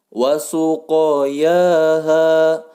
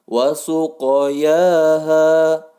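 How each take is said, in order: Both takes have the same delivery.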